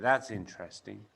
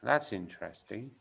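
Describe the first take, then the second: First: "That is" is contracted to "that's". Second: The same.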